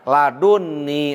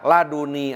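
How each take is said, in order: First: The n sound is doubled and held long. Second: The n sound is single and short. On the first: "pakai tasjid pakai nun wikoya" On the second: "tidak pakai tasjid, tidak pakai nun wikoya"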